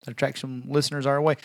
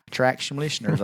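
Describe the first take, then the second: First: Said in the usual way. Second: "Attract some listeners" slurred together, mushy consonants; slurred mouthful. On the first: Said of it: "I said". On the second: Shown as a demonstration. Podcast host echoing his own slip, slurring "Attract some listeners". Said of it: "You mouthful of shit".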